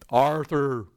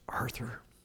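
First: It is said in a loud, booming voice. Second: It is said in a quiet, soft voice.

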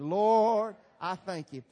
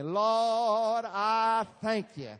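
First: It is said plainly, with little feeling. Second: It is said with more feeling and energy.

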